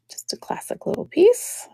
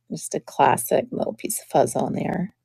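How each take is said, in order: First: Soft breathless whisper. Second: Said in the usual way. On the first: Real, not acted. Repeating the brooch line to herself in a whisper. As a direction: whisper it to yourself.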